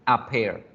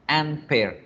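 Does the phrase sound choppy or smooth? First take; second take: smooth; choppy. First: The article flows smoothly into the noun. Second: An n sound cuts between article and noun. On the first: The speaker calls it right. "suena fluido, suena bonito, suena bien" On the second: The speaker calls it wrong. "sin que suene cortado. Van a ver que no es posible"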